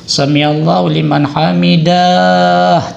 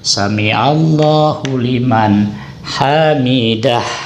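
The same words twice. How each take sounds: First: The end of hamidah is drawn out long. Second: The end of hamidah is kept short. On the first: The speaker calls it wrong. "Jangan dipanjangkan saudara hamidahnya ya" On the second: The speaker calls it right. "Tidak, tapi pendek"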